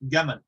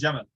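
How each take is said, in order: First: The word begins with a hard G sound. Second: The word begins with a J sound.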